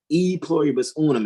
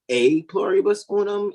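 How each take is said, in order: First: The first word sounds like 'ee'. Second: The first word sounds like 'ay'. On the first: The speaker calls it wrong. "when you're saying E pluribus unum" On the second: The speaker calls it right. "it's really A pluribus unum in pronunciation"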